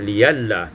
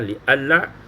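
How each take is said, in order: First: The middle consonant is a y sound. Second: The middle consonant is a full glottal stop. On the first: "mentukarkan hamzah itu dengan ya yang berbaris fathah" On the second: "ditahqiqkan hamzah"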